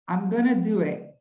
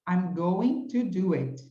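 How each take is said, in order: First: 'Going to' is reduced to 'gonna'. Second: 'Going to' is said in full. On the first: It is the informal way of saying it. "esse gonna, ele nada mais é ... do que o going to" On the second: It is the standard full form. "É a mesma coisa"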